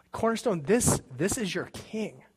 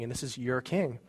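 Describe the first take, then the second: First: Higher, slow, fervent proclamation; emotional declaration. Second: Said in the usual way. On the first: Real, not acted. Pastor proclaiming Jesus as king to the congregation, fervent and slow. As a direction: lift it up to the church, slow and full of feeling.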